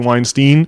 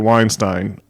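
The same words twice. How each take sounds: First: The last syllable is said like steen. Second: The last syllable is said like stine. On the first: The speaker calls it wrong. "have the wrong pronunciation" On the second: The speaker calls it right. "have the proper German pronunciation"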